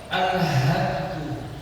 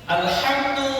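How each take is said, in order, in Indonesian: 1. Bunyi h itu berat dan tebal. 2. Bunyi h itu ringan dan tipis. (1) "pakai hak yang tebal" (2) "menggunakan hak yang tipis, hak yang ringan"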